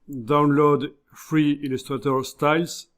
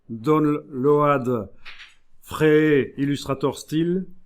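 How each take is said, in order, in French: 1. Elle est prononcée avec un accent anglais. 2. Elle est prononcée avec un accent français.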